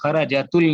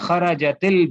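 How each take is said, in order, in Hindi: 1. 'l' से पहले जोड़ने वाला स्वर 'u' है। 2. 'l' से पहले जोड़ने वाला स्वर 'i' है। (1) "खराजतुल नहीं कहेंगे" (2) "कसरा दे देते हैं"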